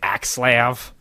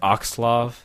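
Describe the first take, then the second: First: The first vowel is a flat 'a' sound. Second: The first vowel is a softened, open sound. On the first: The speaker calls it wrong. "people say it's Axlav" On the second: The speaker calls it right. "I like softening the A sounds like Oxlav"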